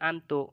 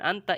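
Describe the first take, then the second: First: The word ends with a u vowel. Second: The word ends with an a vowel. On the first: The speaker calls it wrong. "ini dibacanya an antu ya. Itu udah salah" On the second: The speaker calls it right. "Di Al-Qur'annya kok dibacanya an anta"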